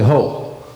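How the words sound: It is said sharply, with tension.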